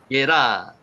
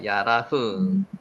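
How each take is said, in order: First: The name is said as Yera. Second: The name is said as Yarah.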